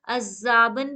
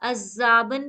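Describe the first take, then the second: First: The middle consonant is a doubled z sound. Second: The middle consonant is a doubled z sound.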